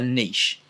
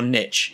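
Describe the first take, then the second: First: It is said in a British accent. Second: It is said in an American accent.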